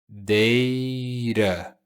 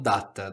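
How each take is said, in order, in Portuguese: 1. A palavra é pronunciada do jeito inglês. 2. A palavra é pronunciada do jeito português. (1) "pronúncia data" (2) "não data. Data é em português"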